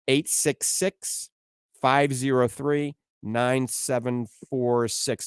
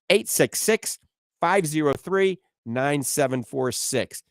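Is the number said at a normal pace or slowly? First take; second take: slowly; normal. First: The number is said more slowly. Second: The number is said at a normal pace.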